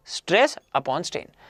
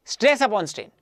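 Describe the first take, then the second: First: Teacher slowing right down so students memorize the formula; slow emphatic repeat. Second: Said in the usual way. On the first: Shown as a demonstration. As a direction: say each word of stress upon strain slowly, letting it sink in. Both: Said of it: "teacher repeats formula for emphasis".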